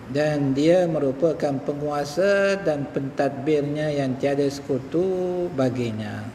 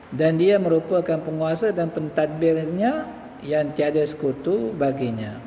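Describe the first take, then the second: No difference in how they are said.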